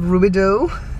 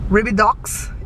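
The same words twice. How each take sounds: First: The name is pronounced the usual local way. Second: The name is pronounced the way it's spelled. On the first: The speaker calls it right. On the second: The speaker calls it wrong.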